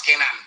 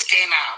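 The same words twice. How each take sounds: First: Canaan as the mistaken form, evenly said; wrong pronunciation. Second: Canaan said as the proper name; proper pronunciation. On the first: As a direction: say "Canaan" the improper way, as a counterexample. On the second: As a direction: say "Canaan" the corrected way, as the model form. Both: Shown as a demonstration. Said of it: "that's the proper name".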